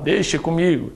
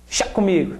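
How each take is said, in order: First: The first word is said in full, two syllables. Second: The first word is clipped to one syllable. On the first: The speaker calls it wrong. "Você não fala, ó, deixa comigo" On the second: The speaker calls it right. "O que é que você fala? Chá comigo"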